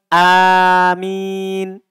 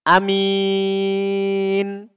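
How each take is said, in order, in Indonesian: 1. Vokal pertama panjang; m-nya tunggal. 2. Vokal pertama pendek; m-nya tunggal. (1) "diringankan mimnya" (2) "kita pendekkan hamzanya dan ringan mimnya"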